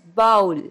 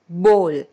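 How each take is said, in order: First: The vowel sounds like the one in 'cow'. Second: The vowel sounds like the one in 'go'. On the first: The speaker calls it wrong. "The wrong pronunciation is bowl. That is wrong" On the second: The speaker calls it right. "We pronounce it as bowl"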